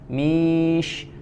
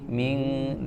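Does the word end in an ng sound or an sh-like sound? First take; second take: sh-like; ng. First: The n blends toward an sh sound. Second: The n is said as an ng sound. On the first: The speaker calls it right. "posisi lidah kita sudah bersiap untuk mengucapkan huruf shin" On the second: The speaker calls it wrong. "jadi tidak dibaca ming"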